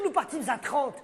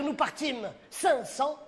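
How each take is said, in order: First: Said in the usual way. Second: «Nous partîmes cinq cents.» drawn out very slowly, every word weighed; slow grand rewording. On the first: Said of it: "Au lieu de dire". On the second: Shown as a demonstration. Producer pitches his grander line to Corneille, slow and weighty. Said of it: "tu peux dire".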